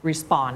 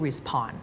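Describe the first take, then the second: First: "respond" with no air after the P; unaspirated P. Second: "respond" with a puffed P after S; wrong aspirated P. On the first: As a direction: keep the P in "respond" tight after S. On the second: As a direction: put a burst of air on the P of "respond". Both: Shown as a demonstration. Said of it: "ไม่พูด respond".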